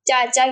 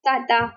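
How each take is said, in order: First: The word is said with 'ch' sounds. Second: The word is said with 't' sounds. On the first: The speaker calls it right. "चे नहीं कहना आता" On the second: The speaker calls it wrong. "उसकी जगह पे वो ते कह देते हैं"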